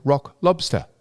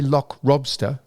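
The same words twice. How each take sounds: First: Said in the usual way. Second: "lock lobster" said as "lock robster"; L and R transposed. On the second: Shown as a demonstration. He puzzles over her pronunciation, "lock lobster" as "lock robster". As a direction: put L in place of R and R in place of L in "lock lobster". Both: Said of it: "how do you transpose those".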